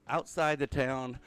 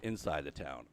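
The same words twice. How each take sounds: First: "Outside" stressed, slow and louder. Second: "Inside" stressed, lower and falling. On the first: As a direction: stretch and push the word "Outside". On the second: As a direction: lean on "Inside" with a falling tune. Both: Shown as a demonstration.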